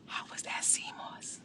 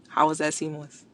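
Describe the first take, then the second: First: Whispered, teasing C mos. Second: Said in the usual way. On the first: Real, not acted. Creator teasing Jimmy about the sea moss, whispered. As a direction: hush it like a secret.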